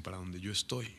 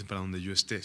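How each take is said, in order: First: "estoy" stressed softly as the right reading. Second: "esté" stressed softly as the wrong reading; quiet contrast on esté. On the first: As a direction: lean on "estoy" to correct the wrong word. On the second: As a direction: lean on the last syllable of "esté". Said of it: "No dice". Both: Shown as a demonstration.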